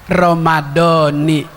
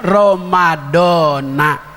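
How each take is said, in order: First: The word ends with an 'ee' vowel. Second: The word ends with an 'ah' vowel. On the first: This is the reading taught in one grammar tradition. "Kalau kita belajar nahu sama Kiai Bunyamin" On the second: This is the commonly used reading. "Kalau kita ikuti yang umum"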